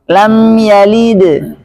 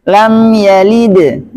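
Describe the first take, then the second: Both takes have the same delivery.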